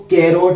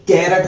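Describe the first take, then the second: First: कैरोट with a long "o", rhyming with "rote"; कैरोट ending in a rounded "-ote"; common variant pronunciation. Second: कैरट with a short "uh" in the last syllable; कैरट ending in a short "-rut"; correct English pronunciation. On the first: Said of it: "कई लोग इसको कैरोट भी बोलते हैं". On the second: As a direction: say कैरट as "kai-rut", no round o. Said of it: "असली pronunciation कैरट होता है". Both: Shown as a demonstration.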